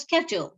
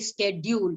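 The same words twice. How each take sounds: First: It is said with an American pronunciation. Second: It mixes British and American pronunciations. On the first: "the way Americans would say it" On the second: "You cannot mix the two and say schedule. So that sounds very very odd"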